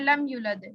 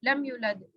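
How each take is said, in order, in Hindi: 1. 'yu' स्वर को छोटा काटा गया है। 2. 'yu' स्वर को छोटा काटा गया है।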